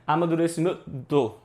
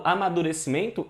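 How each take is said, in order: First: "amadurecimento" with the N voiced as its own nuh before "to"; wrongly sounded N. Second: Said in the usual way. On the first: Shown as a demonstration. Teacher showing how it is not said, N fully sounded. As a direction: break out a full N sound in "amadurecimento". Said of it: "eu não falo assim". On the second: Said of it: "Quando eu falo amadurecimento".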